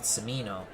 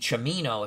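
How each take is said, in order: First: The name begins with an s sound. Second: The name begins with a ch sound. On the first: "We'll stick with Semino" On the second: "if you want to pronounce it proper Italian. Because the C I is a ch"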